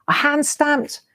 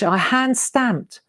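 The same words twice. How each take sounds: First: "hand" lifted high and leaned on; proudly repeat, hitting "hand"; stress on hand. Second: Said in the usual way. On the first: Shown as a demonstration. Showing viewers her old stamps, stressing "hand".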